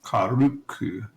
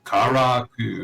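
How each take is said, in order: First: Karuku said slowly, as if reading it; slow Karuku with the syllables swapped; Karuku, careful and wrong; mispronounced name. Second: Karaku said slowly and clearly, ka-ra-ku; slow, careful Karaku, falling at the end; Karaku, the fixed version; corrected name. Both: Shown as a demonstration.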